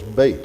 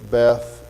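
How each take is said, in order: First: The word ends with a t sound. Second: The word ends with a th sound. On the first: This is the Hebrew pronunciation. "It's always bait. ... The T H is hardened, gets makes a T sound" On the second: This is the usual English pronunciation. "would say Beth"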